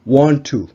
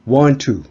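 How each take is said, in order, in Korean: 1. 두 t 소리가 하나로 합쳐집니다. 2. 두 t 소리가 하나로 합쳐집니다.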